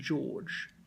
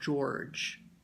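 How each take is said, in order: First: The R is silent, with a long vowel. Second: The R sound is clearly pronounced. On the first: "I'm almost pronouncing like a very long A rather than R" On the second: "rather than saying George"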